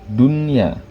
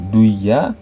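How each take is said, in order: First: The n sound is pronounced clearly before the y. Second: The n sound is merged into the following y. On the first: The speaker calls it right. "tetap bacanya menjadi dunya. Nunnya jelas" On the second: The speaker calls it wrong. "kalau idgham bigunnah itu dibaca menjadi duya"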